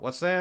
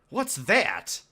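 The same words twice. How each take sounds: First: It is said in a casual, distracted tone. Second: It is said in a shocked, startled tone. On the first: Someone else has caught his attention. The speaker calls it wrong. "it comes off as though he's distracted by someone" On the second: He has just seen what may be a dead body. The speaker calls it right. "he's supposed to be shocked at seeing a potentially dead body"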